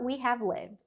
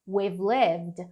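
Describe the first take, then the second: First: We and have are said as two full words. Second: We and have merge into one short syllable.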